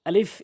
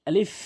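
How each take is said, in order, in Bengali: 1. এটি বাতাস শোনা যায় এমনভাবে বের করে উচ্চারিত হয়। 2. এটি বাতাস শোনা যায় এমনভাবে বের করে উচ্চারিত হয়।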